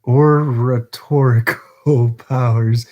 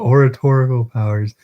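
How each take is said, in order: First: "oratorical" slow and halting, stumbled through with a laugh; "oratorical" tripped over, laughing at the attempt; struggling pronunciation. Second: "oratorical" said smoothly and clearly as or-a-TOR-i-cal; fluent second try at "oratorical"; corrected pronunciation. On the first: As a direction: fumble the word "oratorical" slowly. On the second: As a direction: get "oratorical" right in one go. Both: Real, not acted. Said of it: "I hate just trying to pronounce words".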